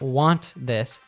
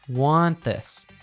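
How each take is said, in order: First: The T at the end of want is pronounced. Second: The T at the end of want is dropped. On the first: "Instead of want this" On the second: "we usually only pronounce the second consonant"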